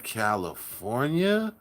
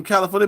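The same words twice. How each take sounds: First: Soft, slow CALIFORNIA, lower and rising at the end; imitating awed reaction. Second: Said in the usual way. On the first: People elsewhere hearing you're from California, hushed awed echo. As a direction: draw CALIFORNIA out low and questioning, as if awed. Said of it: "evokes that type of expression". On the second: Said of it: "you be like".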